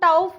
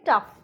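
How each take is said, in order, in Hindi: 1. इस स्वर की आवाज़ ow जैसी है। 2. इस स्वर की आवाज़ uh जैसी है। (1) "इसको हम टाउफ नहीं बोलेंगे" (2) "इसको हम बोलेंगे टफ"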